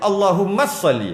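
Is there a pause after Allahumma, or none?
none. It is said fast with no stop. The speaker calls it wrong.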